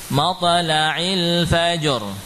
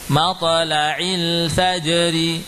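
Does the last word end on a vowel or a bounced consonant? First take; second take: consonant; vowel. First: The last word ends on a bounced stopped consonant. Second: The last word ends with a short vowel.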